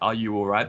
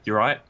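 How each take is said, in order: First: Every word of the greeting is said in full. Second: The greeting is squeezed into a short clipped form.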